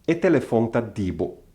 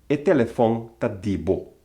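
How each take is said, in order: Both takes have the same delivery.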